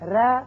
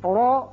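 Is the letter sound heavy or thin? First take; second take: thin; heavy. First: The letter is said with a thin, light sound. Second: The letter is said with a heavy, full sound. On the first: "یہ باریک آواز ہے" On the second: "یہ پر آواز ہے"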